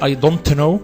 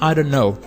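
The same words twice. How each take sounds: First: The T at the end of don't is released. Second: The T is dropped, stopping on the N. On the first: The speaker calls it wrong. "I can't say I don't know" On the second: The speaker calls it right. "it's better to say I don't know. Just you can stop on the N sound"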